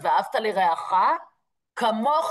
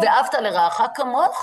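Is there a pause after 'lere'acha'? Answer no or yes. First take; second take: yes; no. First: There is a pause after lere'acha, before kamocha. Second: The words run on without a break after lere'acha. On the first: As you treat your neighbor, God will treat you. "הוא פשוט שם את הפסיק במקום אחר" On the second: Love your neighbor as you love yourself. "במקום ואהבת לרעך כמוך"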